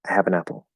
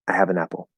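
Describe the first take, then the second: Both takes have the same delivery.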